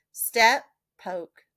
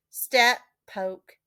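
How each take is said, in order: Both takes have the same delivery.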